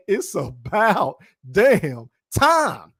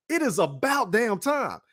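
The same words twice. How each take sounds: First: Very slow, long pauses between "about", "damn" and "time"; dramatic emphasis. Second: "It is about damn time" in one run, somewhat slow; emphatic agreement. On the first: YouTuber reveals the top poll answer, slow and dramatic. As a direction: draw out "It's about damn time" word by word, punching "time". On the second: YouTuber agrees with the poll, firm and measured. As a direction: restate "It is about damn time" firmly, joined up. Repeats it as own verdict. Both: Real, not acted.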